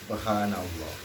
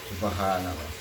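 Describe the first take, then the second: Both takes have the same delivery.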